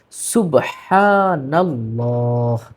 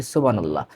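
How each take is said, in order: First: সুবহানাল্লাহ very slow with a clear h in subhan and a final h; correct pronunciation. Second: সুবহানাল্লাহ said quick and low with a clipped ending; common wrong pronunciation. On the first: Teacher showing viewers the correct form, very slowly. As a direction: draw out every syllable of সুবহানাল্লাহ. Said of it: "সঠিক উচ্চারণ". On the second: Teacher demonstrating the wrong way to viewers, low and quick. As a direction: drop the h and rush সুবহানাল্লাহ. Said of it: "না, সুবহানাল্লাহ নয়". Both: Shown as a demonstration.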